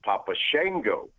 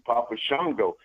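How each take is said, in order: First: Shango with a flat "a", like SHANG-go; correct pronunciation. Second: Shango with a broad "ah", like SHONG-go; own pronunciation. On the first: Wrestler correcting the name, Shango rhyming with tango. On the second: Wrestler explaining the name he coined, Shango with an "ah". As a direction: say Shango as SHAHN-go. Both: Shown as a demonstration. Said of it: "it's correctly pronounced Papa Shango".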